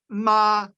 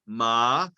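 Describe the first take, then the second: First: The pitch stays steady and high. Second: The pitch warbles between high and low. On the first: It means mother. "the first tone, which is one steady high pitch" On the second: It marks a question. "the third tone is kind of a warble. It goes high and low"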